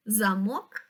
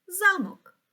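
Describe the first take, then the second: First: Замок stressed on the last syllable, za-MOK; stress on the second syllable. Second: Замок stressed on the first syllable, ZA-mok. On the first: Teacher showing how stress changes meaning, stress on the end of замок. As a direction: say замок with the weight on мок, rising. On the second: Teacher showing how stress changes meaning, stress on the start of замок. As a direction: punch за high, let мок fall away. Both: Shown as a demonstration. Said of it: "чи може наголос змінити значення слова".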